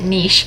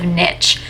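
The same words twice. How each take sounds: First: It has a French-influenced pronunciation. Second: It has a standard English pronunciation. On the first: This is how the speaker habitually says it. "I've always pronounced it niche" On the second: This is how others usually say it. "instead of niche"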